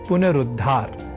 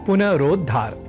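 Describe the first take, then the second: First: The vowel after 'punar' is a short 'u'. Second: The vowel after 'punar' is an 'o'. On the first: The speaker calls it right. "तब शब्द बनेगा पुनरुद्धार" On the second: The speaker calls it wrong. "न कि पुनरोद्धार ... यह अशुद्ध शब्द स्वरूप"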